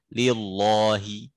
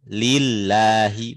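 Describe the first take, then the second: First: The lam is pronounced heavy and thick. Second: The lam is pronounced thin and light. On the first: The speaker calls it wrong. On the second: The speaker calls it right.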